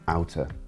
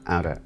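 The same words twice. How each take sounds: First: The middle consonant sounds like a crisp T. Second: The middle consonant sounds like a soft D. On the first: "rather than" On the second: "turning them into D's"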